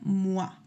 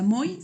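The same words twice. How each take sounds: First: The vowel is said like a gliding 'wa'. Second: The vowel is said as separate o and i. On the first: The speaker calls it right. "se pronunciaría como un O A" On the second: The speaker calls it wrong. "no se pronuncia moi"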